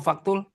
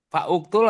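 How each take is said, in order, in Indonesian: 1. Vokal pembuka dihilangkan, menyambung menjadi faktul. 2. Vokal pembuka pada uktul dibaca terpisah.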